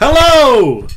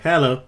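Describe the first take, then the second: First: It is said loudly with high energy. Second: It is said flatly and calmly.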